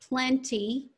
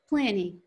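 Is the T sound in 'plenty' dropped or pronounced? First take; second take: pronounced; dropped. First: The T sound after the N is pronounced. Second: The T sound after the N is dropped. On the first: "instead of plenty" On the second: "So we don't hit that consonant T"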